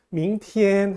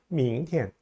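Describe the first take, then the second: First: The second syllable is long and level. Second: The second syllable is short and weak. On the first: The speaker calls it wrong. "tn을 길게 뽑지 마시고요" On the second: The speaker calls it right. "tn을 약하게 읽어주세요"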